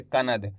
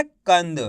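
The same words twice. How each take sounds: First: कनद with a full na, much lower and softer; कनद demonstrated as the wrong three-syllable reading. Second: कंद as two syllables with a half nasal n; कंद said with the n closing the first syllable; correct half na. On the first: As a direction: show the mistake कनद with the na drawn out. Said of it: "ना का पूरा उच्चारण निकल जाएगा इस तरीके से". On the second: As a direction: show the right reading कंद, tight and short. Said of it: "आधा ना का उच्चारण निकालेंगे". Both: Shown as a demonstration.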